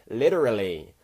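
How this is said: It is said in an American accent. The speaker calls it wrong.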